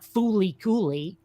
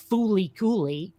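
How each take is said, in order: First: It is said with L sounds. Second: It is said with L sounds.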